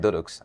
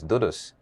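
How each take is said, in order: First: The word is said with a tongue-tied sound. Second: The word is said with its standard sounds. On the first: "because of my tight tongue, I say" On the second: "The correct pronunciation of the word is Dudus"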